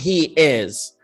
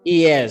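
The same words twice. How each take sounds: First: The two words are said separately. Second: The two words run smoothly together. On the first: The speaker calls it wrong. "تصير chunky" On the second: The speaker calls it right. "لا هي موجودة بس مدموجة"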